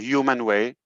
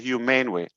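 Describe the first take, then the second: First: The word ends in a short, unstressed 'mun' sound. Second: The word ends in a stressed 'mane' sound. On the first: The speaker calls it right. "It's human. There's no E at the end" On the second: The speaker calls it wrong. "It's not humane. It's not propane"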